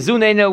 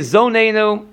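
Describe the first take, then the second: First: The first vowel is a u sound. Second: The first vowel is an o sound. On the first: The speaker calls it right. "this one should be Zuneinu with a Melafum" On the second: The speaker calls it wrong. "You shouldn't say Zoneinu. Again, with a cholam"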